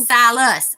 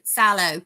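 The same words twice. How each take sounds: First: "Silas" said as SIGH-lus, with a clear final s; "Silas" fixed to end in -lus, SIGH-lus; corrected name. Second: "Silo" said as SIGH-loh, ending in an oh sound; misreading the name as "Silo", SIGH-loh; wrong name. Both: Real, not acted. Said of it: "Not Silo".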